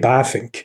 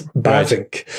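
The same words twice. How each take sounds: First: The middle consonant sounds like an F. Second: The middle consonant sounds like a V. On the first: It is the Dutch way of saying the name. "in Dutch, the letter V is pronounced as an F in English. So it's really Bavinck" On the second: It is the usual English way of saying the name. "it's Bavinck"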